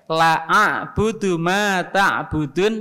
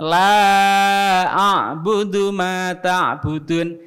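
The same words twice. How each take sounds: First: The vowel in the first word is cut short. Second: The vowel in the first word is held long. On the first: Truly I will worship what you worship. The speaker calls it wrong. "Kalau dia baca pendek" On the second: I do not worship what you worship. The speaker calls it right. "Yang dibaca la yang panjang itu artinya tidak"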